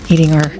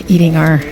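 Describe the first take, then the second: The two takes are said the same way.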